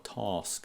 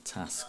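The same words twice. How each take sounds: First: The word has a southern English vowel. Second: The word has a northern English vowel. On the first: "I put a task in it" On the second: "rather than a task"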